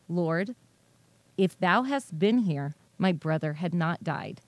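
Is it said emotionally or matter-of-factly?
matter-of-factly. It is said plainly, as a statement of fact.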